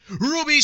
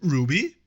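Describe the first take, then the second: First: Name called out much higher and louder; hammed-up indignant call of Ruby; mock yelled name. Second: Said in the usual way. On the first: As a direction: shout the name like a spurned admirer. Reading the obsessive fan's messages.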